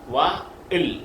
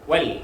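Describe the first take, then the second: First: The word is split into two syllables. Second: The word is said as one syllable. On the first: The speaker calls it wrong. "അലിഫിനെ വായിക്കത്തില്ല" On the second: The speaker calls it right. "പറയേണ്ടത് വൽ"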